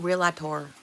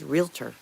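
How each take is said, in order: First: It has an extra syllable: real-a-tor. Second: It has two syllables: real-tor. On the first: The speaker calls it wrong. "There's no ator" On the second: The speaker calls it right. "It's just realtor"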